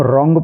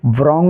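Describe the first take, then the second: First: "रॉन्ग" beginning on R; silent W. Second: "wrong" said as vrong; faulty "wrong", opening vr-; wrongly voiced W. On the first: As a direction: say "रॉन्ग" without any w. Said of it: "इसको हम रॉन्ग पढ़ेंगे". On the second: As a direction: put a v sound before the r in "wrong". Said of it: "wrong नहीं पढ़ेंगे". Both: Shown as a demonstration.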